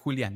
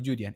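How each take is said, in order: First: The name is pronounced with Spanish sounds. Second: The name is pronounced with English sounds. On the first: This is the name's original form. "mi nombre, como es, es Julián" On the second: This is the form preferred when speaking Japanese. "prefiero que me digan Julián en inglés"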